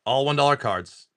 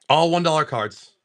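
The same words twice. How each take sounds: The two takes are said the same way.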